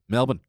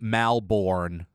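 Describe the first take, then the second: First: It is said with reduced Australian vowels. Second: It is said with full American vowels. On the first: The speaker calls it right. "Pretend there are none" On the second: The speaker calls it wrong. "so many Americans pronounce Melbourne"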